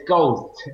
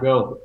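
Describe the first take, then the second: First: "Ghost" with an s before the final t; corrected word Ghost. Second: "Goat" with no s before the final t; mistaken word Goat. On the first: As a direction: correct it to "Ghost", sounding the st ending. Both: Shown as a demonstration. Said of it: "the name is not Goat".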